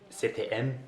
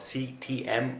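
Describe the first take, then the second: First: The letters are named the French way. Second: The letters are named the English way.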